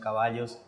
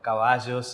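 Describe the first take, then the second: First: The ll is said with a neutral sound. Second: The ll is said with a regional sound. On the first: This is the neutral way used for broadcasting. "entonces ahora son caballos" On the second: This is the speaker's original way of speaking. "no chocar tanto por la pronunciación de la, de la Y"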